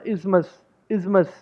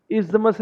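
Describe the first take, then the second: First: Isthmus as IZ-mus, TH dropped; two beats in isthmus, no TH at all; silent TH. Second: Isthmus with the TH sounded as a hard d, IS-duh-mus; three beats in isthmus; wrong pronunciation. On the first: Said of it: "टीएच हमने पूरा नहीं बोलना". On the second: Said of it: "isthmus नहीं बोलना इसको". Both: Shown as a demonstration.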